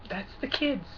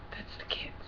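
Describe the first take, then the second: First: Soft. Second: Mock whisper, barely there. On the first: Retold or imitated. Vlogger mimicking a pro-life politician, soft. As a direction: say it softly, trailing down. Mock quote, first take. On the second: Vlogger echoing a pro-life politician's line, whispered. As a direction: echo it in a hushed whisper. Same words repeated in whisper.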